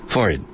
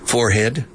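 First: The h sound is left out. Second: The h sound is clearly pronounced. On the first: "o sin aspirar" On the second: "aspirando la H"

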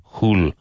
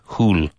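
Both takes have the same delivery.

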